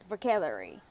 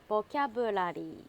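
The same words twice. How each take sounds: First: It is said with a native English accent. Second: It is said with a Japanese accent. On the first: "if the native speaker said vocabulary" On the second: "if you read vocabulary in Japanese"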